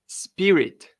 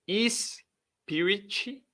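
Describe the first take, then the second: First: No vowel comes before S or after T. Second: Extra vowels are added at the start and end. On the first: The speaker calls it right. "Se você conseguir pronunciar isso aqui desse jeito aqui" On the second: The speaker calls it wrong. "Não é spirit, não tem nenhuma vogal antes do S e nem depois do T"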